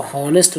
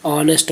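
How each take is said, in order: First: "हॉनेस्ट" with an audible H at the start; H wrongly sounded. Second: "ऑनेस्ट" starting straight on the vowel; silent H. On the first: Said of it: "नहीं बोलते हैं". ("हॉनेस्ट" में ह का साफ़ उच्चारण) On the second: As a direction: drop the H in "ऑनेस्ट". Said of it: "बोलते हैं". ("ऑनेस्ट", बिना ह के उच्चारण) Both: Shown as a demonstration.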